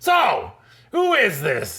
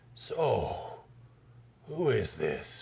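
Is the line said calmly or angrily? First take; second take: angrily; calmly. First: It is shouted in an angry voice. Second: It is said in a calm, plain voice.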